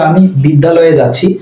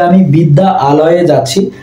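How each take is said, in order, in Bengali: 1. বিদ্যা ও আলয় জোড়া লেগে একটি শব্দ হয়ে যায়। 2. বিদ্যা ও আলয় আলাদা শব্দ হিসেবে বলা হয়। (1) "বলতে খুব সহজ হচ্ছে" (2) "কথা বলাটা একটু কঠিন হয়ে যেত"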